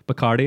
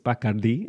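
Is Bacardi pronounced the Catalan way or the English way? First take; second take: English; Catalan. First: Bacardi is pronounced the usual English way. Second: Bacardi is pronounced the Catalan way. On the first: The speaker calls it wrong. "it's not Bacardi and Coke" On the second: The speaker calls it right. "if we were using the proper Catalan pronunciation"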